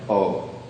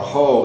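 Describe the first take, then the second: First: It begins directly with the vowel, no h. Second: It begins with an audible h sound. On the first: This is the form after moving into Roman script. "going to be more like o" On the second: This is the original Hebrew form. "it's not going to be ha or ho"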